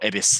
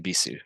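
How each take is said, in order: First: The final u is dropped, ending on s. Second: The final u is pronounced with no t. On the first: The speaker calls it wrong. "you pronounce the U" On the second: The speaker calls it right. "Just Ibisu circuit"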